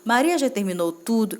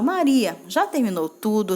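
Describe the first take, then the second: First: There is no pause after Maria. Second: There is a pause after Maria.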